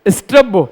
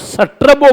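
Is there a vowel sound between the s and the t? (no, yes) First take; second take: no; yes. First: The opening s and t run together without vowel. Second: An extra vowel separates the opening s and t. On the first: The speaker calls it right. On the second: The speaker calls it wrong.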